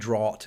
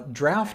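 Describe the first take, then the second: First: It is said the American way, not like 'draft'. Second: It is said the British way, like 'draft'. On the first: "it can also be draught in, in the United States" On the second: "is often how it's pronounced in the U K"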